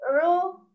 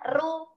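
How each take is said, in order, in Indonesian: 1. R-nya berat, bunyinya tebal. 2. R-nya ringan, bunyinya tipis. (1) "Tapi ru ... Suaranya ada di dalam mulut kita" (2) "Jadi nggak boleh dibaca ru"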